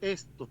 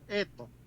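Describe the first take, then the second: First: The s sound is clearly pronounced. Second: The s sound is dropped or weakened. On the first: "nunca le va a decir esto" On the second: "nunca le pronuncia una S, le va a decir esto"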